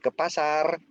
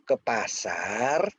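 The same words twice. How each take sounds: First: The pitch stays level at the end. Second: The pitch rises at the end. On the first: It confirms that going to the market is required. "itu memberitahu, mengkonfirmasikan" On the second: It asks whether going to the market is really meant. "Bener nggak ke ke pasar?"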